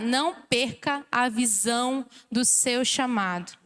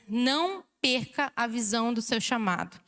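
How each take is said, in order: First: Slowly, spacing out each phrase; slow and deliberate. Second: Said in the usual way. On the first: Shown as a demonstration. Preacher has congregation repeat it to their neighbour, slow and deliberate. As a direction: take your time over every word of the charge. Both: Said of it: "vou falar devagar".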